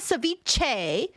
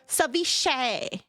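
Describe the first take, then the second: First: The word does not end with 'shay'. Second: The word ends with a 'shay' sound. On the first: The speaker calls it wrong. "I said ceviche" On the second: The speaker calls it right. "it's just a shay"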